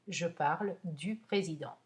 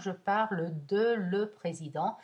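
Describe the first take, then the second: First: Preposition and article merge into one word. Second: Preposition and article are said as two words. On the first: The speaker calls it right. "dites du" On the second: The speaker calls it wrong. "mais ne dites pas de le"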